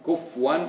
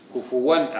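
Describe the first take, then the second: First: The f sound has no vowel after it. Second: The f sound is followed by a u vowel. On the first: The speaker calls it wrong. "لا تقول كفوا" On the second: The speaker calls it right. "فهي بضم الفاء"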